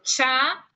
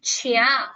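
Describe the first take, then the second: First: No i sound is heard before the a. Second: An i sound is heard before the a. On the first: The speaker calls it right. "como si la I fuera una H" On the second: The speaker calls it wrong. "¿por qué no se dice chia"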